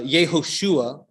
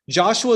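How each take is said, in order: First: The name is said with Hebrew sounds. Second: The name is said with English sounds.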